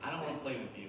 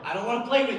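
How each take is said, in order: First: It is said at a quieter volume. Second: It is said at a louder volume.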